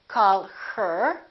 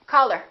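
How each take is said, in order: First: The h in 'her' is clearly pronounced. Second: The h in 'her' is dropped. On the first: "We don't say" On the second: "when people are speaking naturally, we say"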